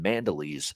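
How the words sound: The name is pronounced with English sounds. "here in uh, North American English, we're calling him Mandolese"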